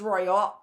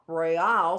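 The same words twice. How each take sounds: First: "royal" with the weight on ROY; first-syllable stress. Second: "royale" drawn out on the final AL; second-syllable stress. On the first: Teacher comparing what sounds right, "royal" stressed on the first syllable. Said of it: "is the stress on the roy". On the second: Teacher showing what sounds wrong, "royale" stressed on the last syllable. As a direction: push the stress to the end of "royale". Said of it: "sounds wrong". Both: Shown as a demonstration.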